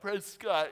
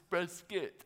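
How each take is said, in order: First: The ending sounds like the word 'cot'. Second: The ending sounds like the end of 'biscuit'. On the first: The speaker calls it wrong. "not Prescott, even though they spell it like Prescott" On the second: The speaker calls it right. "It's Prescott, like biscuit"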